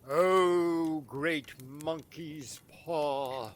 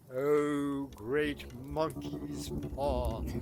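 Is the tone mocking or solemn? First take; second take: mocking; solemn. First: It is said in a flippant, mocking tone. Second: It is said in a serious, solemn tone.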